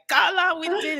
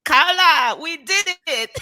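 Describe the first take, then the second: First: Put-on high Cameroonian accent; excited Cameroonian voice. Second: Put-on high, loud Cameroonian accent; excited Cameroonian voice. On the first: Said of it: "reading it in my head in Gilles' voice". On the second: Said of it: "I'm gonna use my Cameroonian accent".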